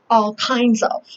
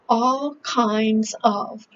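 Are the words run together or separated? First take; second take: run together; separated. First: The words are run together into one unit. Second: The words are said separately and carefully. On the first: "Americans say" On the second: "this one says"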